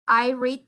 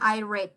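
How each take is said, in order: First: Read does not sound like the colour red. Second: Read sounds like the colour red. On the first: The reading happens now. "in the present" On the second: The reading happened in the past. "in the past"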